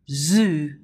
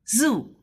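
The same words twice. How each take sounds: First: The z is said like the English z. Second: The z is said like Chinese pinyin z.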